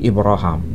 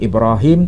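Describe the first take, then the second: First: The name is pronounced the Hisham reading way. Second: The name is pronounced the Hafs reading way. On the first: "tapi Ibrahim" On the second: "bukan Ibrahim"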